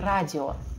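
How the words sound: It is said with a Russian pronunciation. The speaker calls it wrong. "не радио"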